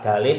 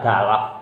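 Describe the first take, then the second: First: The second syllable has an 'i' vowel. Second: The second syllable has an 'a' vowel. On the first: "bisa dalif" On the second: "bisa dalaf"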